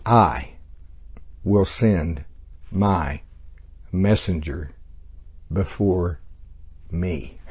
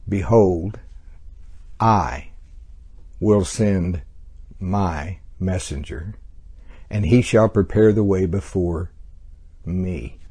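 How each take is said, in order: First: "I", "will send", "my", "messenger", "before", "me" each said alone after a pause; slow word-by-word stress. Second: Slow reading with "I", "will send", "my messenger" and "me" set apart by pauses; stress on I, will send, my messenger, me. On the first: Teacher repeating the verse slowly to show the pronouns. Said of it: "notice the tenses used here. He said, and the personal pronouns".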